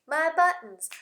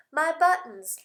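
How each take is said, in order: Both takes have the same delivery.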